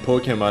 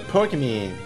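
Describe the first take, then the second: First: The word is said in a plain, normal way. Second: The word is said in a silly, put-on accent. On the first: "instead of saying Pokemon" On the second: "like just to make it sound derpy and silly"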